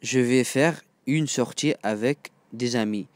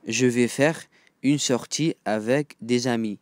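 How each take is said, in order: Both takes have the same delivery.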